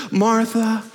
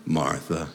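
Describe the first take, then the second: First: Gentle chiding call, drawn out and lifted in pitch; Jesus. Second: Low, hushed, tender reproach; Jesus. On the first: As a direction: call the name patiently, leaving it hanging. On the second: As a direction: drop to a soft, knowing murmur. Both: Acted. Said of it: "he may have said it like this".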